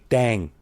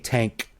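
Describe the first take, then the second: First: The name begins with a D sound. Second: The name begins with a T sound. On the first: "they say Dang" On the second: "Thais don't say Tank"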